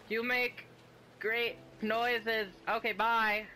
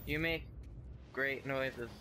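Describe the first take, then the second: First: Higher, louder squeaky awkward imitation; mock your own awkward goodbye, voice squeaking up; embarrassed mock voice. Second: Said in the usual way. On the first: Player imitating her awkward compliment to a creature, higher embarrassed mock voice. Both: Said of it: "You're like".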